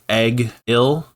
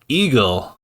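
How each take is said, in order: First: It starts like egg and ends with ill. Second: It sounds just like the word eagle. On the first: "one character pronounced his name Egg-il" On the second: "now we have Dixon calling him Eagle"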